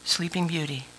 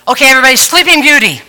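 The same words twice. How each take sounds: First: Soft, hushed Sleeping Beauty, much softer; quietly cue the congregation to heads down. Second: Brisk loud teacher call, fast; mock teacher quieting chatty kids; teacher calling the class. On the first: Shown as a demonstration. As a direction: say it gently so the room goes silent. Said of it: "Are you ready?". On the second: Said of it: "she would go".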